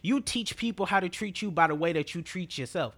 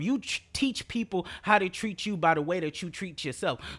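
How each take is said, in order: First: It is said at a faster pace. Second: It is said at a slower pace.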